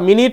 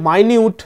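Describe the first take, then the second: First: The first vowel is a short 'i' sound. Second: The first vowel is an 'eye' sound. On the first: It refers to a unit of time. "যদি বলো তোমরা মিনিট, তাহলে যদি মানে হয় সময়" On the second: It means very small or detailed. "যদি বলা হয় মাইনিউট মানে যথাযথ"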